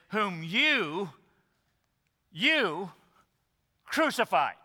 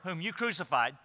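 First: The word 'you' is strongly stressed. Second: The word 'you' gets no special stress.

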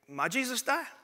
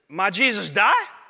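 First: It is said at normal volume. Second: It is said a little louder.

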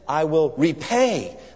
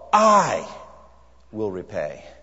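First: The stress is on "repay". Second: The stress is on "I".

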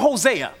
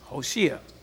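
First: The name is pronounced the usual English way. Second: The name is pronounced the Hebrew way.

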